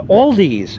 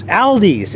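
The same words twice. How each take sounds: First: "Aldi's" said as ALL-deez; "Aldi's" starting like "all"; possessive misnaming. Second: "Aldi's" said as AL-deez; "Aldi's" starting like the name Al; other possessive variant. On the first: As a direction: say "Aldi's" with an aw and a final z. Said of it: "It's not called Aldi's". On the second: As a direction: say "Aldi's" with the a of "pal". Repeats name with other vowel. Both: Shown as a demonstration.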